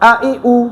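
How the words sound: The vowels are said firmly but naturally. The speaker calls it right. "স্বাভাবিকভাবে পড়তে হবে"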